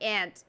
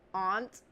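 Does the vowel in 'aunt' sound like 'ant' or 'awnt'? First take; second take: ant; awnt. First: The vowel sounds like the one in 'ant'. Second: The vowel sounds like the one in 'awnt'.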